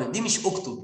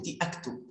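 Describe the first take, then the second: First: أكتب read as "uktub", opening on u like an imperative; wrong reading. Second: أكتب read as "aktub", opening on a with a hamza; right reading. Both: Shown as a demonstration.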